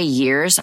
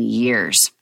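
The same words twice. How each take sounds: First: Said in the usual way. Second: "years" drawn out slowly and lower; stress on YEARS. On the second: Real, not acted. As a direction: lean on "years", stretching it low. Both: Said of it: "when I say years, I mean".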